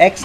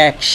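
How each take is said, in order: First: "এক্স" said quickly, plain ending; wrong X pronunciation. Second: "এক্স" with a strong hissing ks ending; correct X pronunciation. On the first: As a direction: say "এক্স" as the casual rejected version. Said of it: "এক্স না". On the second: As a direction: carefully release the end of "এক্স". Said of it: "এটা হবে কি?". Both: Shown as a demonstration.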